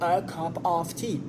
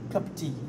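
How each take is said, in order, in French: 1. Chaque mot est prononcé en entier et plus lentement. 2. Les petits mots sont avalés et ça va vite. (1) "on débit beaucoup plus vite que quelqu'un qui dit a cup of tea" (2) "on peut quasiment ne pas les dire"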